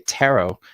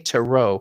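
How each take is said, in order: First: The stress is on the first syllable. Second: The stress is on the second syllable. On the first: "type in the first part of tarot capitals" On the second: "type in tarot with the accent at the end"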